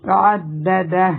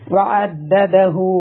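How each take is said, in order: First: The word ends on a silent, cut-off h. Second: The word ends with a lengthened hu vowel. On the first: The recitation stops at this word. "Full stop ഇടുന്ന സമയത്ത്" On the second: The recitation continues into the next verse. "Next ആയയിലോട്ട് കൂട്ടിയാണ് ... രണ്ട് ഹർക്ക നീട്ടുക"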